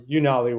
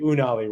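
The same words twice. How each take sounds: First: The name begins with a 'you' sound. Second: The name is given a Hawaiian pronunciation. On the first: This is the company's own pronunciation. "we were founded in Austin, Texas, so I think that's probably why we're Unali" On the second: This is how it would be said in Hawaii. "if we were founded in Hawaii, we would definitely be Unali"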